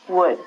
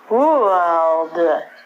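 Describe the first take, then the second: First: The L sound is silent. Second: The L sound is pronounced. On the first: The speaker calls it right. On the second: The speaker calls it wrong.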